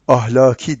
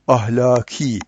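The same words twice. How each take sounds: First: The vowels are said short, without lengthening. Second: The vowels are lengthened and the k is softened. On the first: The speaker calls it wrong. "demeyeceğiz" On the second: The speaker calls it right. "diyeceğiz"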